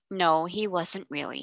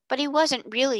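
First: Said in the usual way. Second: Hasty. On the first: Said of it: "he said". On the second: Acted. Girl hastily defending the lost girl's father, blurting high. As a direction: rush in to defend him. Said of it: "put in Janet hastily".

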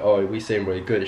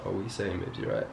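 First: Casual laddish greeting at normal volume; greeting the boys. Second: Sus chat-up. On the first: Man demonstrating slang he uses with his boys, casual greeting. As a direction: say it easily, like greeting a mate. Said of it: "if I go up to one of my boys". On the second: Man demonstrating how he greets a girl, sus and soft. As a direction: drop the volume, sidle in smoothly. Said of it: "you're a bit more sus". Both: Shown as a demonstration.

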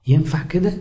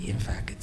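First: Said in the usual way. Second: A hushed, breathy whisper of the answer ينفع كده. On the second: Shown as a demonstration. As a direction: drop to a whisper to answer your own question. Preacher asks, then answers himself.

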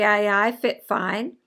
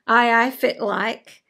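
First: Slow Doric with "fit fine" instead of "fit like", ending on a rise; a learner's mistaken Doric "fit fine"; wrong Doric phrase. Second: Slow Doric greeting with "fit like" said clearly; a learner's corrected Doric "fit like"; corrected Doric phrase. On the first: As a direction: get the Aberdeen Doric greeting slightly wrong as "fit fine". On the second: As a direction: set it right: "Aye, aye, fit like" in Aberdeen Doric. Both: Shown as a demonstration.

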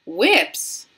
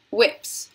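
First: Loud, startled one-word query; cried question. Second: Said in the usual way. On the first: A narrator's reading. Veruca questions the door's sign, surprised cry. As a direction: exclaim it in surprise. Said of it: "cried Veruca Salt".

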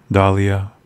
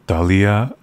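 No difference in how they are said.

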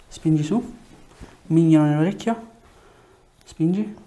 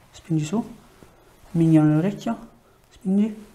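The two takes are said the same way.

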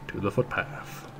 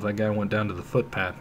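First: Whispered aside, much softer; whispered to himself. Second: Said in the usual way. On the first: Real, not acted. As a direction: breathe it to yourself. Repeats then whispers.

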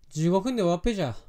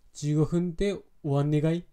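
First: Quick Fukushima dialect with "終わっぺじゃ" falling at the end; Fukushima accent. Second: Fukushima dialect question, "終わんねがい" rising at the end; unhurried rising Fukushima question; Fukushima accent. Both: Shown as a demonstration. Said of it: "福島なまりだ、これが。".

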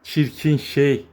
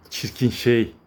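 First: Drawn out slowly, "Çirkin" leaned on; fond mock insult, stretched long; slow affectionate tease. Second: Said in the usual way. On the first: Real, not acted. Calling the kitten ugly fondly, slow and drawn out. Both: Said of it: "repeats it slower".

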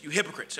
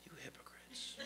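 First: Said in the usual way. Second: A hushed whispered "You hypocrites". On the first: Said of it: "There's an exclamation point here". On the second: Shown as a demonstration. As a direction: breathe it, unvoiced, as a whisper. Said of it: "what was Jesus' tone?".

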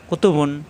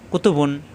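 The two takes are said the same way.

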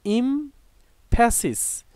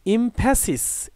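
First: "emphasis" slowly, split after the first syllable; slow syllable break. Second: Said in the usual way. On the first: Shown as a demonstration. Teacher introducing a new word to learners, "emphasis" slowly broken up. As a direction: say "emphasis" in two slow parts with a clear gap.

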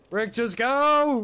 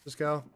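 First: Drawn-out desperate yell, much higher; shouting. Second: Said in the usual way. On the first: Real, not acted. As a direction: yell it across the fight. Yelling at teammate mid-fight.

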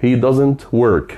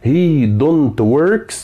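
First: Slow correct model. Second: Wrong form, mock question. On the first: Teacher to students, modelling the correct sentence: very slow and clear. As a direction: say "He doesn't work" very slowly, word by word, falling at the end. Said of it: "مش he don't works". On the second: Teacher to students, showing the wrong form: very slow doubtful drawl. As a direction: stretch "he don't works" out very slowly with a doubtful rise. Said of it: "لا، دمها تقيل". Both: Shown as a demonstration.

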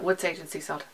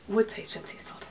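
First: Said in the usual way. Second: Name whispered in awe; hushed reverent naming. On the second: Shown as a demonstration. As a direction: whisper the scent name like a secret. Savouring the scent name.

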